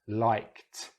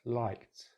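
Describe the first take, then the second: First: The ending sound is loud and emphasized. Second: The ending sound is soft and reduced. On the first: "Now I'll exaggerate it" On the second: "I'm going to say it naturally"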